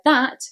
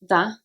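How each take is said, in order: First: The final t sound is pronounced. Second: The final t sound is dropped.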